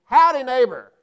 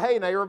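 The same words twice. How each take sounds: First: Loud friendly howdy call; a neighborly holler across the yard; hollered greeting. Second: Said in the usual way. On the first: Retold or imitated. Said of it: "You know what I hollered at him?".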